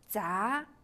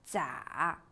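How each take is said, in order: First: The pitch rises from mid to high. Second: The pitch dips low then rises.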